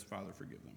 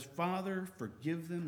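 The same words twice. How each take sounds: First: Much softer, hushed plea; soft prayer. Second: Said in the usual way. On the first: Retold or imitated. Preacher repeating Jesus' prayer for mockers, hushed. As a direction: let the words fall to a hush.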